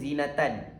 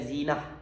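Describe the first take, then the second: First: The word ends with a full -tan ending. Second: The word stops short on a final h. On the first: "Kalau baca sampai ujung" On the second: "Kalau dimatikan"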